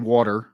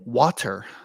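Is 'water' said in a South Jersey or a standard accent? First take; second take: South Jersey; standard. First: It is said with a South Jersey accent. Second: It is said with a standard accent. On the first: The speaker calls it wrong. "I have the South Jersey thing, so I say water" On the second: The speaker calls it right. "But it's pronounced"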